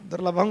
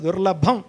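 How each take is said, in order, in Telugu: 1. ఈ పదాన్ని మెల్లగా, సాదాగా అంటున్నారు. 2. ఈ పదాన్ని గట్టిగా, బలంగా అంటున్నారు. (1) "దుర్లభం కాదు" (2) "కొంచెం బాగా గట్టిగా అనాలి"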